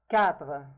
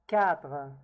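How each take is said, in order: No difference in how they are said.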